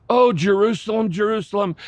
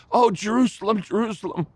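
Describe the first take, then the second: First: Higher, louder anguished call of a name; passionate cry. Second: Higher, swelling call fading to a hush; passionate cry replayed. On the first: Retold or imitated. Jesus cries over Jerusalem from the hill, passionate and anguished. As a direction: cry out over the city with longing. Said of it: "in passionate cry". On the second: Shown as a demonstration. Preacher replays Jesus' lament for the congregation, passionate then hushed. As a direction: replay the anguished cry, letting it die away. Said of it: "Can you hear the verse that the passion had".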